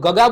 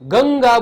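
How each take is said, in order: First: The first syllable has no nasal sound. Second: The first syllable carries a nasal sound. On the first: The speaker calls it wrong. "ગગા બોલીએ છીએ ના" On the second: The speaker calls it right. "ગંગા બોલીએ છીએ તો ગ ઉપર ભાર અનુભવાય છે"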